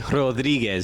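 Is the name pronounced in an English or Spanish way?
Spanish. The name is said with Spanish sounds. The speaker calls it right. "I have to say Rodriguez"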